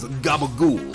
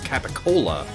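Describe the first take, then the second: First: It is clipped, ending in a 'gool' sound. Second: It is full, ending in a 'cola' sound. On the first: "often pronounced in like The Sopranos as" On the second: "when written, be pronounced as"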